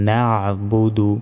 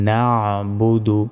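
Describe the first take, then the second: The two takes are said the same way.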